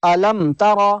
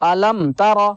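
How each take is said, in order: First: The lips part quickly after the m. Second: The lips part quickly after the m.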